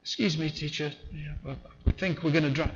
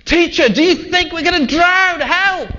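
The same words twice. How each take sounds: First: Soft, politely understated; mock-polite hushed request; mock polite calm. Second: High, loud panicked shout; terrified fishermen yelling at their sleeping teacher; panicked cry. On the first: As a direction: ask as if it were no bother. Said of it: "Do you think they said it like that?". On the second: Acted. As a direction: scream for help as the boat sinks. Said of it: "That's where they were coming at it".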